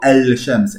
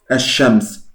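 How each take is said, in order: First: An L sound is heard before the sh. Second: No L sound; the sh is doubled. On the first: The speaker calls it wrong. "no digo al-shams, eso no" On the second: The speaker calls it right. "No hay una L"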